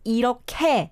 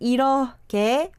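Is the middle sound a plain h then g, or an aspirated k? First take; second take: aspirated k; h then g. First: The h merges into an aspirated k sound. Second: It is read with a separate h and g. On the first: "it is pronounced as 이렇게 because the H sound goes over to the kiok" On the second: "it is written as 이렇게"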